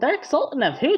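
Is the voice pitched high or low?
high. The voice is pitched higher.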